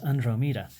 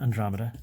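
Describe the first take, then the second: First: The word is said carefully with every sound full. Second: The word is said quickly with sounds shaved off. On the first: The speaker calls it right. "because it is Andromeda" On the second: The speaker calls it wrong. "It's not Andromeda"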